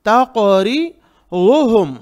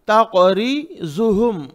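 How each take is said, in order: First: तक़रिज़ुहुम slow, thick dark l-like sound for ज़ु; correct heavy dad. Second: तक़रिज़ुहुम with a buzzing zu before hum; wrong z sound. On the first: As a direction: say तक़रिज़ुहुम with tongue side on the molars. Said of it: "ज़बान के right side दाढ़ों की तरफ". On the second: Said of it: "जू wrong, गलत". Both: Shown as a demonstration.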